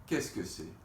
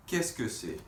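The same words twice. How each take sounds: The two takes are said the same way.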